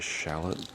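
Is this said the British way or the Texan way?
Texan. It is said the Texan way. "I'm in Texas, so I say shallot"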